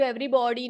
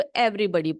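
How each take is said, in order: First: "everybody" with an open "aw" in body, like "every-bawdy"; wrong pronunciation demo. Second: "everybody" with a short neutral vowel in body, like "every-buddy"; correct pronunciation demo. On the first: Teacher showing a child the misreading, "everybody" said as "every-bawdy". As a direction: say "everybody" with a full rounded o in the third syllable. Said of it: "इसको everybody नहीं पढ़ना बेटा".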